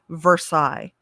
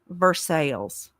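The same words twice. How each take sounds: First: It is said with the usual standard pronunciation. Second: It is said with the local Indiana pronunciation. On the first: "This is Versailles" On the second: "in Indiana, they pronounce it Versailles"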